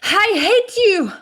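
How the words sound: It is said with audible, breathy breathing. The speaker calls it right. "if I'm angry, that is reflected in the way I breathe"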